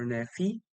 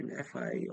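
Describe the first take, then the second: First: "Nefi" rhyming its last syllable with "see"; Nefi ending in FEE. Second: "Nefi" rhyming its last syllable with "eye"; Nefi ending in FYE. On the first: Streamer trying a viewer's name both ways, "Nefi" ending in fee. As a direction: say "Nefi" with a final "fee" sound. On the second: Streamer trying a viewer's name both ways, "Nefi" ending in fye. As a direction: say "Nefi" with a final "fye" sound. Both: Shown as a demonstration. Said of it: "I hope I'm pronouncing your name right".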